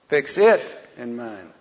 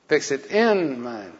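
First: The word 'it' is said loudest. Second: The word 'in' is said loudest.

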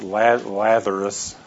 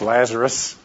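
First: The s sound is lisped, like th. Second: The s sound is a clear s. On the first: The speaker calls it wrong. "I always want to say this with a lisp" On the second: The speaker calls it right. "but it's Lazarus"

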